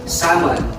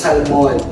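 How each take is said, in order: First: The L sound is left silent. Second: The L sound is clearly pronounced. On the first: The speaker calls it right. "it's a silent L" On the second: The speaker calls it wrong. "hindi siya salmon"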